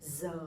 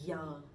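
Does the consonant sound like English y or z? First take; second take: z; y. First: The consonant sounds like an English z. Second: The consonant sounds like an English y. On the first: This is the northern Hanoi pronunciation. "I'm from Hanoi, so my pronunciation would be Z" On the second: This is the southern pronunciation. "people from the south, they would say ya"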